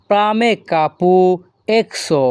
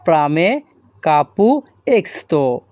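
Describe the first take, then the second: First: প্রামে কাপু এক্সো ending in এক্সো; first version. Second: প্রামে কাপু এক্সতো ending in এক্সতো with a t; alternative version. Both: Shown as a demonstration. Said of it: "অথবা আপনারা বলতে পারেন এক্সতো".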